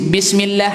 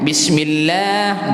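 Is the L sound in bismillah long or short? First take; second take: short; long. First: The L vowel is cut short quickly. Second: The L vowel is held for two beats. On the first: The speaker calls it wrong. "Kita tak baca" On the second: The speaker calls it right. "dua harakat"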